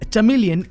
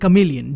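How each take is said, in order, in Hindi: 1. यह शब्द ch की आवाज़ से शुरू होता है। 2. यह शब्द k की आवाज़ से शुरू होता है। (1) "जो भी प्रोनाउंस करना चाहते हो" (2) "जो भी प्रोनाउंस करना चाहते हो"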